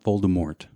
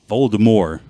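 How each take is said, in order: First: The final T is sounded. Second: The final T is silent. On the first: The speaker calls it wrong. "It's not Voldemort" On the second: The speaker calls it right. "You're not supposed to say it"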